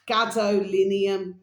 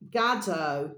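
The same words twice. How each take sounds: First: "gadolinium" said slowly, syllable by syllable, and louder; careful full word. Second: "gadolinium" broken off after the first syllables; stumbling try. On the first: Host finally getting the element name right, slow and careful. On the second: Host practising a hard element name, faltering. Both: Shown as a demonstration. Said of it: "So I'm gonna say it first".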